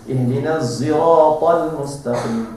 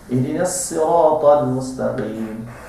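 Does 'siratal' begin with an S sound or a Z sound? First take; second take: Z; S. First: Siratal begins with a Z sound. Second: Siratal begins with a plain S sound. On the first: "Ada yang guna z" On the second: "Ada yang baca bukan sad tapi sin"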